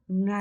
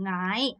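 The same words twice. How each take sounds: First: The pitch falls. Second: The pitch does not fall. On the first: The speaker calls it right. "ngày 내려가야 돼요" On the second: The speaker calls it wrong. "ngày 아니고"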